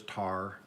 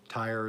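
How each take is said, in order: First: "tire" flattened into "tar"; Oklahoma "tire". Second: "tire" with its full long-I vowel; standard "tire". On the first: Newcomer showing local speech, "tire" said as "tar". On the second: Newcomer comparing local speech, "tire" in full. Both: Shown as a demonstration. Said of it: "tire is tar".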